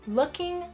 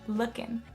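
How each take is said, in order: First: The final g sound is pronounced. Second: The final g sound is dropped. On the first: "You can of course pronounce the G sound" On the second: "We are not pronouncing the final G sound in looking"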